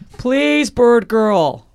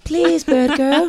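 First: It is said in a normal-pitched voice. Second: It is said in a put-on high voice. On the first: The speaker calls it wrong. "I forgot. I wrote high voice" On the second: The speaker calls it right. "I can't do a high voice"

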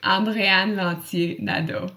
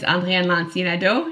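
First: The name is said slowly. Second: The name is said at normal speed.

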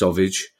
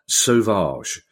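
First: It is said to sound like sausage. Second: It is said in a cool, French-sounding way. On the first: "as in sausage" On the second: "I've gone for the coolest possible pronunciation of that name"

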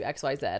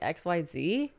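First: The final letter is said the British way. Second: The final letter is said the non-British way. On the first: "James will be like, you know, we'll just do XYZ" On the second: "I'm like"

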